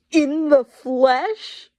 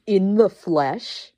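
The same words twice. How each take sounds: First: Slow, high, loud eerie voice. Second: Slow, louder dramatic reveal. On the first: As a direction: draw it out high and otherworldly. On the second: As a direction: savor the words slowly. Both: Acted. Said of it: "after they said "in the flesh" a couple of times".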